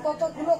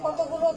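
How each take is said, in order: The two takes are said the same way.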